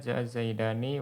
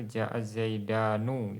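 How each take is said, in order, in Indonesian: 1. Kata terakhir diakhiri dengan bunyi i. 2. Kata terakhir diakhiri dengan bunyi u. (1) "nun pada musanna itu dikasrohkan" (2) "ada yang didomah"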